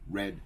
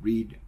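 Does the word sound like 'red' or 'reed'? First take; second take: red; reed. First: The vowel is short, like in 'red'. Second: The vowel is long, like in 'reed'. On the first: It is the past tense. "es como si fuera el color rojo" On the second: It is the present tense. "el verbo original"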